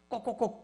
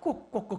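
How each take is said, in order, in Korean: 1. 이 소리는 적대적이고 공격적으로 들려요. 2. 이 소리는 따뜻하고 감탄하는 것으로 들려요. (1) "목에 털을 세우고 ... 공격형으로 바뀌어" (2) "멋져 멋져 멋져 당신 멋져"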